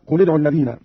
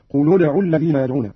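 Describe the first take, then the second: First: Said in the usual way. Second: قل ادعوا joined as "quludu", with u after the l; damma on lam. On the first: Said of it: "قرأ قالون بضم". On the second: Shown as a demonstration. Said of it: "بضم الأولى الساكنين وهو اللام". (قل ادعوا بضم اللام)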